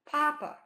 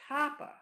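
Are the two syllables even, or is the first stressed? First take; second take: first stressed; first stressed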